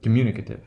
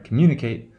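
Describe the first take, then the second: First: Communicative with "kate" weakened to "kuh"; schwa in communicative. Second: Communicate with a clear, full "kate"; long A in communicate. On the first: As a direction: say communicative with a reduced "kuh-tiv". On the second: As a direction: say Communicate, keeping the ending unreduced. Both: Shown as a demonstration. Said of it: "there is a difference in pronou".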